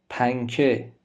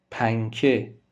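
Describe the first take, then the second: No difference in how they are said.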